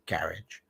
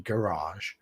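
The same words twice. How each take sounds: First: It is pronounced in a British way. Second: It is pronounced in an American way. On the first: This is how the speaker's own people say it. "but we say garage" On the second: This is how the listeners say it. "I know you say garage"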